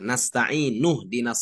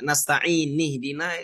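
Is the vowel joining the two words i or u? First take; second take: u; i. First: The vowel joining the words is u. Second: The vowel joining the words is i. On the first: The speaker calls it right. "itu kan marfu, berarti dhammah" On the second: The speaker calls it wrong. "dikasih harkat kasrah"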